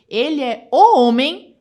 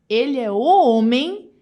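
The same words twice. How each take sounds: First: "o" louder and slower, held; stress on o. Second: "homem" loud and slow; stress on homem. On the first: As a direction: punch "o" hard and slow. ("o" bem forte e arrastado) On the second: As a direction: lean hard on "homem". ("homem" dito alto e devagar) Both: Shown as a demonstration. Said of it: "Olha isso".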